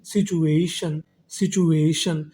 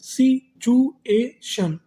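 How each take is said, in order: First: Said in the usual way. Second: situation stretched very slowly, higher, syllable by syllable; slow drawn-out reading. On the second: Shown as a demonstration. Teacher sounding out a new word slowly for students, higher and drawn out. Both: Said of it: "तो meaning क्या बनी हमारी?".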